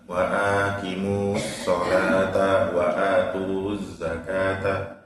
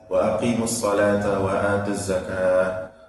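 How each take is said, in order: First: It is recited haltingly, with stumbles. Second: It is recited smoothly and fluently. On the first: The reader is still learning to recite. The speaker calls it wrong. "membaca masih terbata-bata" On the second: The reader is skilled at recitation. The speaker calls it right. "yang fasih membaca"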